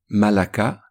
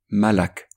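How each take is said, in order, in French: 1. Le mot se termine par une voyelle finale. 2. Le mot se termine sur une consonne nue.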